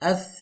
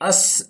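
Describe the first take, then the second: First: The final consonant is a soft th sound. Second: The final consonant is a hissing s sound. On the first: The speaker calls it right. "इसको सीन से अलग करना है" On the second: The speaker calls it wrong. "अस इस नहीं पढ़ना, उस पर सीन हो जाएगा"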